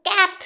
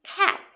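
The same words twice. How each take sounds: First: ক্যাট with a plain hard k, no puff of air; hard, unbreathed k in ক্যাট; wrong pronunciation. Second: খ্যাট with an aspirated k; correct pronunciation. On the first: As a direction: demonstrate the mistaken ক্যাট with an unaspirated k. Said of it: "এরকম করবে না". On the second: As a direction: model খ্যাট, puffing air on the first consonant. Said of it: "উচ্চারণটা ঠিক এখান থেকে আসবে". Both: Shown as a demonstration.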